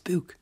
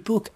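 First: The vowel is long, like 'oo' in 'boot'. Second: The vowel is short, like 'u' in 'put'. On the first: "My mother says book has two O's, so it's book" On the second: "but it's actually book"

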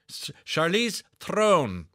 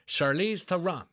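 First: The surname has one syllable, with a slightly rolled R. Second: The surname has two syllables, with a plain R. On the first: The speaker calls it right. "pronounced Throne, as in Game of, with a slight roll of the R" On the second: The speaker calls it wrong. "Am I saying that correctly? The answer is no"

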